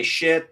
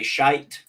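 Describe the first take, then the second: First: Shit said short and clipped, American style. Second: Shite with a long drawn vowel, British style. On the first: Showing a Brit how Americans say it, plain. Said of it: "we say shit". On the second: Showing the British version of the word, drawn out. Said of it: "they say shite". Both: Shown as a demonstration.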